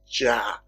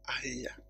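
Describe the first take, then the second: First: The name starts with a J consonant sound. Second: The name starts with an open vowel sound. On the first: The speaker calls it wrong. "if you look at J there, you pronounce it Jah" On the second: The speaker calls it right. "this J used to be A-I-Y, then the name is very simple"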